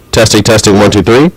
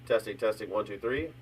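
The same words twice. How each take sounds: First: Said in the usual way. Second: Faint, distant mic test; words barely reaching the mic; far from mic. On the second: Real, not acted. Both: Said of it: "More crisp, but really low".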